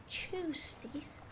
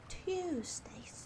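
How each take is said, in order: No difference in how they are said.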